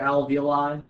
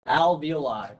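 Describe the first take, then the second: First: The O vowel is barely heard or dropped. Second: The O vowel is clearly pronounced. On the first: The speaker calls it wrong. "They don't even put the O kind of in there" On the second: The speaker calls it right. "but it's alveoli"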